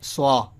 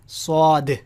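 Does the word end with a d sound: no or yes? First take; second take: no; yes. First: The word ends without a final d sound. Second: The word ends with a clear d sound. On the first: The speaker calls it wrong. "It's not like स्वा" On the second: The speaker calls it right. "It is स्वाद"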